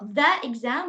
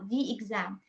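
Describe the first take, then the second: First: 'The' is said with a short 'uh' vowel. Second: 'The' is said with an 'ee' vowel. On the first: The speaker calls it wrong. "not the exam" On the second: The speaker calls it right. "but the exam"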